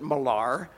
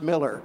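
First: The name sounds different from the word Miller. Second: The name sounds like the ordinary word Miller. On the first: "she pronounced it Millar" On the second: "spelled Millar, pronounced Miller"

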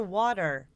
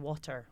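First: It is pronounced with an American accent. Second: It is pronounced with a British accent. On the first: "I order water because no one understands" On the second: "when I say water"

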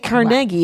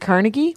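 First: It is said the Pittsburgh local way. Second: It is said the usual non-local way.

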